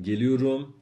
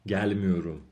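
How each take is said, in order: First: گلیوروم louder, stress at its end. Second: گل میوروم with گل stressed, falling after. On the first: Teacher contrasts positive form for students, end-stressed. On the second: Teacher contrasts negative form for students, گل stressed. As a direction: hit گل, let the rest fall. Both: Shown as a demonstration.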